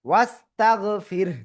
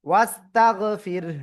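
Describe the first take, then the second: Both takes have the same delivery.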